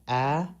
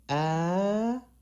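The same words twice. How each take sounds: First: The pitch stays level and normal. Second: The pitch goes up high. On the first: "So you have ah" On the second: "and then high pitch, you go ah"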